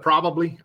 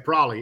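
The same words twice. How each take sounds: First: The word is said in full, three syllables. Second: The word is shortened to two syllables, prolly. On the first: "Instead of probably" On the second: "I always say probably. And I even text it probably. P-R-O-L-L-Y"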